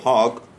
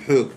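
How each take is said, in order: First: The vowel is read as a kamatz. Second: The vowel is read as a cholam. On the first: The speaker calls it right. "במקום חוג" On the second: The speaker calls it wrong. "הם קוראים חוג"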